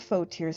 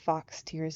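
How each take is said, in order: First: The first word ends on a plain vowel. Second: The first word ends with a ks sound. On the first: The speaker calls it right. "that's faux, isn't it?" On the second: The speaker calls it wrong. "I was pronouncing it wrong"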